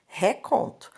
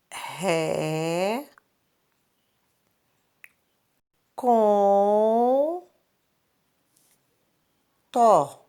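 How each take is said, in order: First: Said in the usual way. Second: "Ré, com, tó" drawn out with long pauses between syllables. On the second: Shown as a demonstration. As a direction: stretch each syllable of "Ré, com, tó" as if writing it. Teacher sounds out word while writing.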